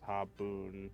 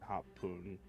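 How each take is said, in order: First: The middle consonant is a soft B sound. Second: The middle consonant is a hard P sound. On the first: The speaker calls it wrong. "Haboon doesn't sound" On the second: The speaker calls it right. "It uses the P sound as well"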